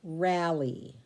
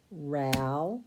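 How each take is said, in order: First: Said in the usual way. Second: "Ral-E" cut into "Ral" and a long "E"; "Ral-E" said in two separate beats; syllables split. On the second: Shown as a demonstration. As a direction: break it after the L. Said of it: "closed syllable in the first syllable".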